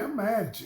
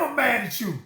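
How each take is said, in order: First: It is said calmly, without audible anger. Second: It is said heatedly, with audible anger. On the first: The listener focuses on the message. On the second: The listener focuses on the messenger.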